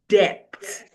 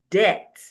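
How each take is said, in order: First: The B sound is pronounced. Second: The B sound is left silent. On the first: The speaker calls it wrong. "You don't say depth" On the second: The speaker calls it right. "you say debt"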